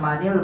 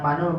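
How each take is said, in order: First: The linking vowel after man is i. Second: The linking vowel after man is u. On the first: The speaker calls it right. "dibaca manil" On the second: The speaker calls it wrong. "bukan manul"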